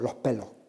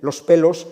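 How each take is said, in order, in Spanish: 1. La s se suaviza en una h aspirada. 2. La s se pronuncia completa y clara. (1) "sino los pelos" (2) "no dicen los pelos"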